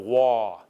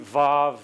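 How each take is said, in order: First: The letter name begins with a W sound. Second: The letter name begins with a V sound. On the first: "this is how it's often pronounced if you learn Hebrew at most universities" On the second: "that's how I was raised to pronounce it"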